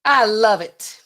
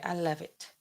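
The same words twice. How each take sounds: First: Loud, punchy mock quote; Trump. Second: Much softer, understated mock quote; Trump. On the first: Streamer quoting the president's endorsement, loud impression. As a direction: say it big, as a politician's endorsement. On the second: Streamer retrying the president's line, soft impression. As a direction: toss it off quietly as the politician. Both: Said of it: "How would he say it?".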